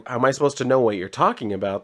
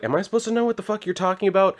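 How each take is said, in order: First: Said in the usual way. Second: Much higher and fast, a hammed-up incredulous snap; mock exasperated retort. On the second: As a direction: toss it off fast and high like it's absurd. Retold game character's rude retort.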